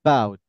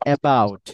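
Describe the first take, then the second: First: The first vowel is very weak, barely heard. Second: The first vowel is fully and clearly pronounced. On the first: The speaker calls it right. "খেয়াল করেন আমি কিভাবে বলি" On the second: The speaker calls it wrong. "আমরা বলি হচ্ছে অ্যাবাউট"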